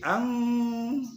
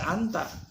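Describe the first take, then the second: First: The n is hidden in a nasal hum. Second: The n is pronounced as a clear n. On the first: The speaker calls it right. "tapi ang" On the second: The speaker calls it wrong. "jangan dibaca anta"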